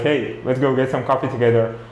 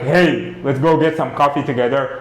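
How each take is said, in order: First: It is said calmly, at normal volume. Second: It is said loudly, almost shouted.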